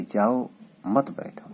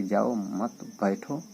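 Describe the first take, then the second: First: जाओ, pause, then मत बैठो as one phrase; pause after जाओ. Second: जाओ मत बैठो slowly, word by word; slow normal reading. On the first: Teacher showing what the listener mistakenly hears, pause after जाओ. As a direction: split off जाओ and join मत to बैठो. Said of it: "लग रहा है कि नहीं कह रहा है". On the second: Teacher showing what the speaker normally means, slow जाओ मत बैठो. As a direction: draw out जाओ मत before reaching बैठो. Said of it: "वो नॉर्मली कह रहा है कि". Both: Shown as a demonstration.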